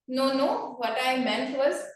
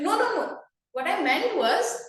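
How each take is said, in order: First: It is said flatly, with no pitch variation. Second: It is said with lively, varied pitch. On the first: The speaker calls it wrong. "very monotonous" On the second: The speaker calls it right. "the tone variation was something that you can improve with"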